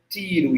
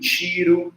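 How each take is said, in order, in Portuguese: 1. O t é uma oclusiva dental simples. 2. O t soa como um ch. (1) "T sem ser chiado" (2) "T chiado"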